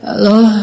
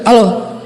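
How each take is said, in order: First: It is said softly, like someone just waking up. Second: It is said in a rough, harsh voice.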